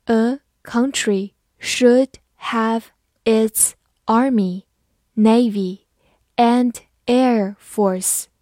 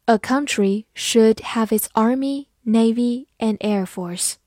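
First: Very slow, word-by-word delivery; slow, measured teacher's read-out. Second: Said in the usual way. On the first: Shown as a demonstration. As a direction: pause after each word as for learners. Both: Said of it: "好，慢慢来读".

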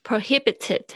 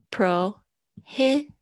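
First: Prohibited at normal speed, hi stressed and higher. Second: Prohibited slowed, with the second syllable hi punched higher; stress on HI. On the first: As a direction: say Prohibited with the weight on hi. (Prohibited正常速度，重音在hi) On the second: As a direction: hit the hi in Prohibited hard and slow. (Prohibited重音放在hi上，慢慢念) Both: Shown as a demonstration. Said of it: "注意一下重音在he上面".

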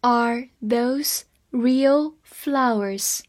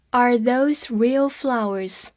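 First: Very slow, every word clear; slow reading. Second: Said in the usual way. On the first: Shown as a demonstration. Teacher reading slowly to students, every word clear. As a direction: read it slowly for learners. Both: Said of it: "好，慢慢来读。".

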